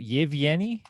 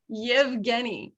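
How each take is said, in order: First: "Yevgeny" with a rising questioning end; questioning repeat. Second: "Yevgeny" said slowly with hard g, falling; careful pronunciation. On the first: Real, not acted. Player checks the hunter's name, "Yevgeny" as a rising question. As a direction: ask "Yevgeny" back, pitch climbing at the end. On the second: Shown as a demonstration. Game master corrects a player, "Yevgeny" slow with hard g, falling.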